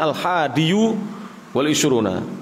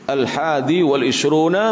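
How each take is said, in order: First: The word ends with an added 'u' vowel. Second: The word ends without the added 'u' vowel. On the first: This is the underlying original form. The speaker calls it wrong. "asalnya al-hadiyu wal isruna" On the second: This is how it is actually read. The speaker calls it right.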